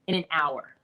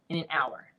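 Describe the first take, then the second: First: Said in the usual way. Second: Awed whisper, barely voiced. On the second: Shown as a demonstration. Repeating the record hour to listeners, in an awed whisper. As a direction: let it out in a hushed breath.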